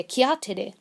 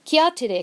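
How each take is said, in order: First: Said in the usual way. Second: Higher, louder "Kia tere" snapped out to hurry them; urging call. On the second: A narrator's reading. Rangiora hurrying the people along, calling.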